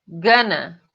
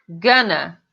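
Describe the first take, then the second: No difference in how they are said.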